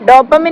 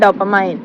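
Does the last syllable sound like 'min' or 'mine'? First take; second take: min; mine. First: The last syllable has a short 'i' sound. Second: The last syllable has a long 'ai' sound. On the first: The speaker calls it wrong. "ഡോപ്പമിൻ അല്ല" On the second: The speaker calls it right.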